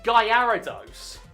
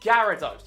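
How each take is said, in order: First: The middle 'ara' part is strongly stressed. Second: The middle 'ara' part is not stressed. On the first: The speaker calls it wrong. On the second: The speaker calls it right.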